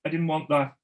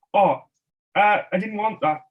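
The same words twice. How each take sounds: First: Said in the usual way. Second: High, loud fake-innocent whine; mock complaint. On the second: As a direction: pretend you got the wrong thing. Kids tormenting shopkeeper, fake complaint.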